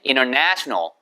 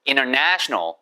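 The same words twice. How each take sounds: The two takes are said the same way.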